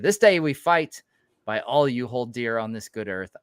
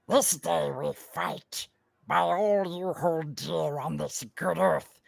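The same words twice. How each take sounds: First: It is read in the speaker's normal voice. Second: It is read in a put-on Gollum voice.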